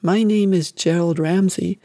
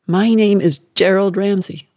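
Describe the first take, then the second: First: Small, obedient recital; a mild hint of a scared child; boy obeying his mother, barely voiced meek repetition; frightened boy repeating. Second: Louder, hammered words; mother hammering the name at her son, louder; angry insistence. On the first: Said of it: "He repeated". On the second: Acted. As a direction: force each word on him. Mother demanding the repetition.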